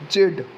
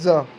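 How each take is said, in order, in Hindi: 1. यह एक ऐसा अक्षर है जो d ध्वनि पर खत्म होता है। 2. यह एक छोटा एकल अक्षर है, इसमें d नहीं है। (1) "जेड को हम बोलेंगे जेड" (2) "हम बहुत से लोग ना जेड को ज बोलते हैं"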